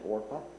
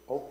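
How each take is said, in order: First: The r sound comes before the p. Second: The r sound comes after the p. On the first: This is the name on the birth certificate. The speaker calls it right. "Oprah Winfrey's name is actually Orpah" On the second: This is how people commonly say the name. The speaker calls it wrong. "People mispronounced it"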